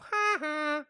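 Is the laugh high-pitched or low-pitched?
high-pitched. It is a high-pitched laugh like Nelson's.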